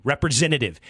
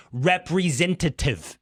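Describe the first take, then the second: First: Said in the usual way. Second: "Representative" stretched out syllable by syllable; drawn-out, insistent "Representative" to a machine; exasperated phone command. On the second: Retold or imitated. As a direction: say "Representative" slowly, over-enunciated. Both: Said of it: "how they say representative".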